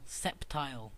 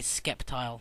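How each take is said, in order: First: The name has no k sound after the s. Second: The name has a k sound after the s. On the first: The speaker calls it right. "It's Septile, people" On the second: The speaker calls it wrong. "one that always annoys me is when I hear people say Skeptile"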